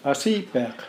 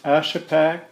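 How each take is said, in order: First: "Asipek" said the Yupik way, ah-SEE-pek; Yupik pronunciation. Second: "Ashapak" with flat English vowels, as the name is written; English form of Ashapak. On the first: [name] showing the interviewer his name in Yupik, Yupik pronunciation of "Asipek". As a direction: stress the long "see" in "Asipek", with a back-of-the-throat final consonant. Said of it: "And in Yupik". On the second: [name] giving his surname to the interviewer as written, English pronunciation of "Ashapak". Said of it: "would pronounce it Asipek". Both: Shown as a demonstration.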